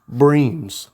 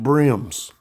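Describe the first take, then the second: First: The vowel is long, like in 'dream'. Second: The vowel is short, like in 'rim'. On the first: "They say that's how you actually pronounce it" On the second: "I've always said a brim"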